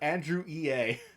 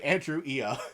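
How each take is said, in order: First: EA is spoken as two separate letters. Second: EA is blended into a single word. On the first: The name of the game company. "we're talking about the game company" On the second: A mocking nickname version of the name. "Oscar just pronounces it Ia"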